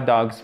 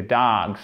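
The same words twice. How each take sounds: First: 'dogs' with a short, closed o; wrong short vowel. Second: 'dogs' with a long, open 'aah' vowel. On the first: Teacher showing learners what to avoid, 'dogs' with short French-style o. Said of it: "ça, c'est une voyelle longue. C'est pas dogs". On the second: Teacher correcting learners' English, 'dogs' with long drawn-out vowel. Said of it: "ça, c'est une voyelle longue". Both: Shown as a demonstration.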